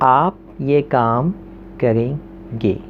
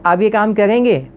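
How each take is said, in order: First: The pitch goes down, like a command. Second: The pitch goes up, like a question.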